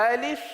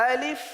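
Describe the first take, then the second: The two takes are said the same way.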